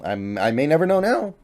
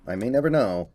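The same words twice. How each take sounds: First: Real voice break mid-sentence; voice crack. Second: Said in the usual way. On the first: Real, not acted. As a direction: voice cracks up high on now. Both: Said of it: "Voice crack".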